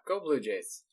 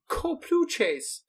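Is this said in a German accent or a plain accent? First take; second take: plain; German. First: It is said in the speaker's ordinary accent. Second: It is said in an imitated German accent.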